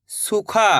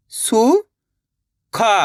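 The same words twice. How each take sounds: First: Said in the usual way. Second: सुखा split as सु, long pause, खा; syllable by syllable. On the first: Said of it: "इनको आपस में लगा पढ़ना है". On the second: Shown as a demonstration. Teacher teaching how to read, सुखा broken into syllables. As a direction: sound out सुखा, lifting the pitch on सु. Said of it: "एक अक्षर का उच्चारण करके".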